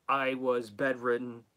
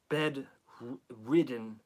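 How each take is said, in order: First: Said in the usual way. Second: "bedridden" drawn out with a clear d; "bedridden" slow, split before "ridden", d clearly voiced; careful enunciation. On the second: Shown as a demonstration. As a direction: say "bedridden" slowly, syllable by syllable. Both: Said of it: "not written".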